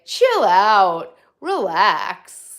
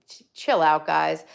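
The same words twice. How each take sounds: First: Louder, hammed-up boyfriend saying "Chill out"; mock boyfriend. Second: Said in the usual way. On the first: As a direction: mimic the boyfriend's laid-back "Chill out, relax". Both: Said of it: "As my, as my boyfriend would say".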